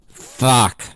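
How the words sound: It sounds angry.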